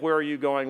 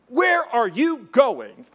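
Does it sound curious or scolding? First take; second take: curious; scolding. First: It sounds curious and friendly. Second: It sounds scolding like a parent.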